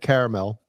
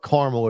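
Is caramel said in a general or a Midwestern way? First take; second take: general; Midwestern. First: It is said in a general, non-Midwestern way. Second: It is said in a Midwestern way.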